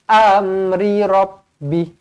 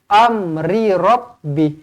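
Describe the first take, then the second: The two takes are said the same way.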